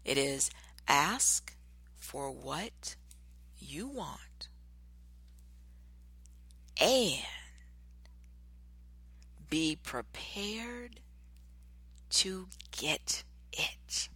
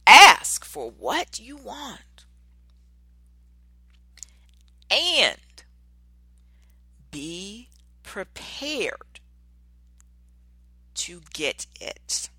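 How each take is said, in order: First: Slow, drawn-out, dropping to a whisper; slow hushed title reading; dramatic announcement. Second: Very slow, loud and high, then settling; slow, ringing declaration; proclaimed quote. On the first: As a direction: savour every word like a title reveal. Announcing the show's topic. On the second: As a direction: proclaim it like a motto. Repeating the topic loudly. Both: Acted.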